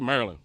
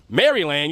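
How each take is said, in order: First: The word is said in a shortened local form. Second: The word is said fully, following its spelling. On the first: This is how locals say it. The speaker calls it right. "if you're from Maryland, ... you say Maryland" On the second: This is how outsiders say it. The speaker calls it wrong. "you don't say Maryland"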